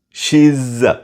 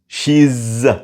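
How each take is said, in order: First: The words merge into one contracted syllable. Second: The same.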